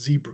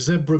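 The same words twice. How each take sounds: First: Zebra is said with an American pronunciation. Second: Zebra is said with a British pronunciation. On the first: The speaker calls it wrong. "not zebra" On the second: The speaker calls it right. "like zebra crossing"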